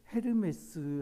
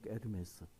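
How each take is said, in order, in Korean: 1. 이 단어는 첫 H 소리가 나요. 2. 이 단어는 첫 H 소리가 묵음이에요.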